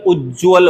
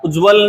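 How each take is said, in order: First: उज्ज्वल said as "uj-jval"; doubled ज. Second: उज्ज्वल said as "u-jval", higher; only one j in उज्ज्वल; single ज. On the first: Teacher recapping, उज्ज्वल with double j. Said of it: "उज्ज्वल होता है". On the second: Teacher recapping the mistake, उज्ज्वल with single j. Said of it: "उज्ज्वल नहीं". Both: Shown as a demonstration.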